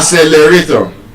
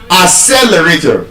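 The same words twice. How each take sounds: First: The stress is not on the second syllable. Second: The stress is on the second syllable. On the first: The speaker calls it wrong. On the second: The speaker calls it right.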